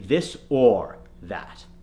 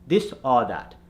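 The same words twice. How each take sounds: First: The word 'or' has a full 'or' vowel. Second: The word 'or' is said like 'ah'. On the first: The speaker calls it right. "we need it to be" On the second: The speaker calls it wrong. "The Indian accent will say ah"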